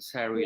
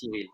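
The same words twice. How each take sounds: First: The name is said with an American accent. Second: The name is said with a French accent.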